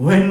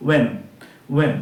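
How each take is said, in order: First: When with a breath of h at the start; h wrongly sounded. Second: When begun on a plain w, no h; silent h. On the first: Teacher showing the mistake, when with h sounded. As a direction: aspirate the opening of when. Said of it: "when কিন্তু নয়". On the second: Teacher correcting students, when with h silent. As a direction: say when with the h left out. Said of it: "আমরা এইচটাকে silent রাখবো". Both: Shown as a demonstration.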